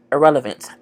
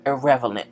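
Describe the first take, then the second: First: "irrelevant" said carefully as ir-REL-e-vant; corrected pronunciation. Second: "irrelevant" slipped into "irrevelant", v and l swapped; mispronounced. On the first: Correcting herself, she carefully says "irrelevant" properly. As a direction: fixes "irrelevant", l before v. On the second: Recapping a TV insult, she stumbles over "irrelevant", saying "irrevelant". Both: Real, not acted. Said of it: "I said it wrong the first time".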